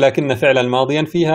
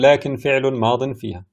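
First: The first word ends in -na, with accusative endings after. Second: The first word ends silently, with nominative endings after.

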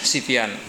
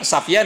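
First: The first vowel is i. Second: The first vowel is a. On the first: "Bitathlif ini bisa dibaca dengan tiga harakat" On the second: "Bitathlif ini bisa dibaca dengan tiga harakat"

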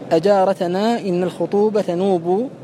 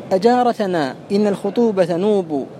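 Both takes have the same delivery.

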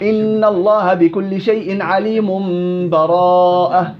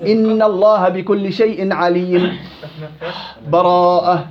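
First: The words run together with no break. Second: A full stop comes before the last word.

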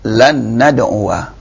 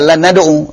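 First: The last word ends with an audible 'wa' syllable. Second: The last word ends without a final 'a' vowel. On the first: The speaker calls it right. "fathahnya nyata" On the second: The speaker calls it wrong. "Bukan dibaca lan nadu'u, salah"

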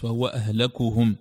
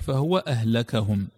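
First: The vowel after the k is u. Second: The vowel after the k is a. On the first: He is the most ruined of them all. "الرفع هو الأشهر" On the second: He made them out to be ruined. "ورواية الفتح"

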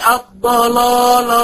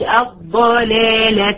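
First: The L sound is heavy and dark. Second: The L sound is light and thin. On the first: The speaker calls it wrong. "مش الضلالة" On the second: The speaker calls it right. "قلت الضلالة لأن اللام مرققة والضاد مفخمة"

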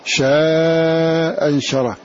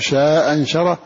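First: The vowel in the first word is lengthened. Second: The vowel in the first word is short. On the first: "المد" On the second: "القصر"

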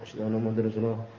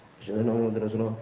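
No difference in how they are said.

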